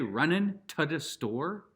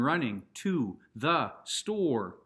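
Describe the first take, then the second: First: Running ends with a clipped -in sound. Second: Running ends with a full -ing sound. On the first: The speaker calls it wrong. "save it for the commons" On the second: The speaker calls it right. "The elite put the G's at the end"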